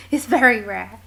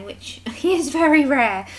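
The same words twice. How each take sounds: First: Said in the usual way. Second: Laughing as she says it. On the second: Real, not acted. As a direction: giggle through the words. Self-deprecating laugh.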